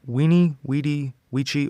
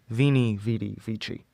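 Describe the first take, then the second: First: Each word begins with a W sound. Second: Each word begins with a V sound. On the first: "with the W" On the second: "than the V"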